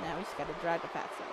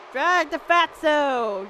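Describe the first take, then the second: First: Quick, low and soft; hushed, hurried note to self; muttered aside. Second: Slow, stretched-out call; long, lingering delivery; drawn-out command. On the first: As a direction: think aloud under your voice. Talking through the game move. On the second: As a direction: drag the words out as you order it. Chanting the move at the game. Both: Real, not acted.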